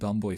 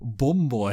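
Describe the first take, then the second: First: The first vowel is a standard southern 'uh'. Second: The first vowel is a northern 'oo'.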